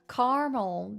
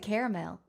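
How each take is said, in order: First: It is said with an American pronunciation. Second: It is said with the local, non-American pronunciation. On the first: "That's so American" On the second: "Here we say caramel. Then that's just the normal pronunciation"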